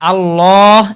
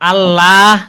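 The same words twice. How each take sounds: First: The L sound is heavy and full. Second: The L sound is thin and light. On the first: "এটা হচ্ছে মোটা" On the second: "এটা হচ্ছে চিকন"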